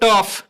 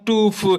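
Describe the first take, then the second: First: The vowel is a short 'uh' sound. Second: The vowel is a long 'oo' sound. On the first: The speaker calls it right. "टफ पढ़ेंगे" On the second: The speaker calls it wrong. "नहीं कि इसे इसे पढ़ देंगे टूफ"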